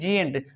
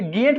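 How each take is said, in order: First: The word begins with a j sound. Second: The word begins with a hard g sound. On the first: The speaker calls it right. "क्या पढ़ेंगे, जिएंट" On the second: The speaker calls it wrong. "इसे गेंट नहीं पढ़ेंगे"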